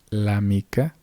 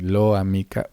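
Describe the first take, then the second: First: The l joins directly onto amica. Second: An extra o vowel follows the l. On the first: The speaker calls it right. "Aquí dice la mica" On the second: The speaker calls it wrong. "u otro tipo de sonidos que en realidad no están presentes"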